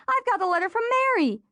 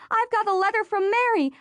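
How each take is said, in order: First: High and fast, tumbling out with joy; fast excited shriek. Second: High, joyful cry, landing hard on Mary; thrilled announcement with the stress on Mary; excited shriek. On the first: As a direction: rush the repeat in a giddy squeal. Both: A narrator's reading. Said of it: "Rachel shrieked".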